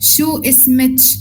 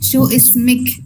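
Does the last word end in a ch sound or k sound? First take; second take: ch sound; k sound. First: The last word ends with a ch sound. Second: The last word ends with a k sound. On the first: "കാഫിന് ജീമായിട്ടാണ് പ്രൊണൗൺസ് ചെയ്യാം" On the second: "ഇസ്മിന്റെ കൂടെ ഒരു കാഫ് last ചേർത്ത് കൊടുക്കും"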